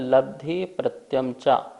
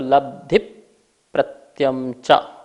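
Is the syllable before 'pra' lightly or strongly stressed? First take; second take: lightly; strongly. First: The syllable before 'pra' is lightly stressed. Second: The syllable before 'pra' is strongly stressed.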